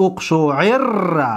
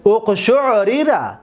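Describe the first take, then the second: First: اقشعر as uqshu'irra, with one long rolled r; merged double r. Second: اقشعریره slowly, as uqshu'-ri-ra, each r separate; original unmerged form. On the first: Teacher showing the result of merging, اقشعر with held double r. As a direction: lean on the doubled r in اقشعر and draw it out. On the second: Teacher giving the underlying passive, اقشعریره with unmerged r's. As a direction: sound out both r's apart in اقشعریره. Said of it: "اصلش است". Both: Shown as a demonstration.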